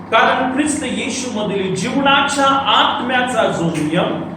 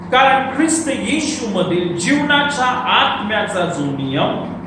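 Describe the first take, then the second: Both takes have the same delivery.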